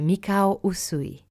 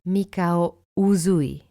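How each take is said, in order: First: The middle consonant is a hissing S sound. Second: The middle consonant is a buzzing Z sound. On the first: The speaker calls it right. "It's Usui" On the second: The speaker calls it wrong. "and not Mikao Uzui"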